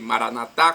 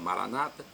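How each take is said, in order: First: The stress is on the last syllable. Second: The stress is on the second-to-last syllable. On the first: This is how Catholics say it. "com a tônica na última" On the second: This is how Protestants say it. "com a tônica na penúltima sílaba"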